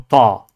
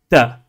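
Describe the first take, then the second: First: It is said heavy, with emphasis. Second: It is said light, without emphasis. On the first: The speaker calls it wrong. "ni la lettre ta" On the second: The speaker calls it right. "On dit bien la lettre ba, ta"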